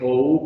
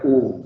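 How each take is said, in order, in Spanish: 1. Se pronuncia como dos vocales separadas, o y luego u. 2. Se pronuncia como una sola vocal, u. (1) "No hay que decir O U" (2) "U, simplemente"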